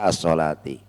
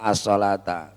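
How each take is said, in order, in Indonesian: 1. Kata itu berakhir dengan vokal 'i'. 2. Kata itu berakhir dengan vokal 'a'. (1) "harus dibaca as-salati" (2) "harokatnya as-salata. Ini salah ya"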